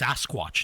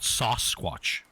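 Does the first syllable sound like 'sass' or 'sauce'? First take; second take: sass; sauce. First: The first syllable sounds like 'sass'. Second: The first syllable sounds like 'sauce'. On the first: The speaker calls it right. "It's Sasquatch" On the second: The speaker calls it wrong. "not sauce squatch"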